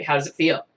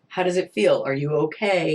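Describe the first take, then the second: First: Mildly sarcastic acted question; a touch of mock spite. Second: Lightly acted, caring check-in; a touch of concern in the question. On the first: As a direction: put a light dig into the question. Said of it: "like, sarcastic". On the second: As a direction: ask as if checking she is okay. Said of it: "Maybe she's actually checking".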